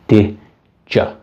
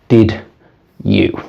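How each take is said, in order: First: The two words blend together into one reduced sound. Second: The two words are said separately and fully. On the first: "A native speaker would probably pronounce these two words as" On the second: "I think you will probably pronounce these two words as did you"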